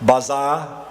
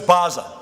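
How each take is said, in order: First: The name sounds like the English word 'bizarre'. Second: The name does not sound like 'bizarre'. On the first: The speaker calls it wrong. "Some people mispronounce it" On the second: The speaker calls it right. "so it's Baza"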